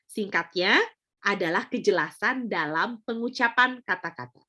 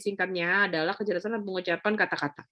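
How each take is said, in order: First: It is spoken at moderate speed with clear articulation. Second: It is spoken too fast with mumbled articulation. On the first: The speaker calls it right. "Clear ya? Itu contoh pertama" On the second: The speaker calls it wrong. "terlalu cepat. ... mulutnya tidak terbuka lebar sehingga ngomongnya kayak kumur-kumur"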